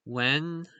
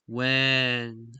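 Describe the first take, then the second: First: Said in the usual way. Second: "when" with the vowel drawn out long, exaggerated; lengthened vowel. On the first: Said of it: "so it's not". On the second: Shown as a demonstration. Explaining to viewers how the word is sung, lengthened vowel. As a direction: stretch out the e in "when". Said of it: "sound is, uh, pronounced longer".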